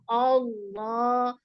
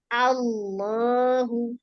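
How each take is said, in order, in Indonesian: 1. Vokal pertama gelap dan berat. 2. Vokal pertama ringan; hanya L yang berat. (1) "Jadi jangan oh, Allah, Allah, enggak" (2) "tapi Allahu. Ya, A-nya tipis masih"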